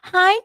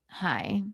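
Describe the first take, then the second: First: The greeting sounds cheerful and upbeat. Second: The greeting sounds sullen and grumpy. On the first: The person is happy. "in a good mood" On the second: The person is unhappy. "in a bad mood"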